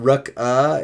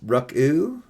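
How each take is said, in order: First: The name ends in an 'uh' vowel. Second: The name ends in an 'oo' vowel. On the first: The speaker calls it wrong. "Not Ruck uh" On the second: The speaker calls it right. "it's Ruck oo"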